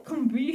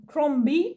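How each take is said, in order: First: "Crombie" retried as /kɔbi/, still rising and unsure; second pronunciation try. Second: "Crombie" tried hesitantly as /klɔbi/, pitch rising at the end; first uncertain stab at "Crombie", rising like a question; unsure try at "Crombie" with a rising /klɔbi/; unsure pronunciation. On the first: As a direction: another go at "Crombie", a touch higher. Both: Real, not acted. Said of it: "je sais pas comment ça se prononce".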